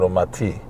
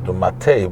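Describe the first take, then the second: First: The word ends with an 'ee' vowel. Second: The word ends with an 'eh' vowel. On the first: God speaks of His own judgment being tilted. "but umati" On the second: Someone tilts the judgment. "not umate"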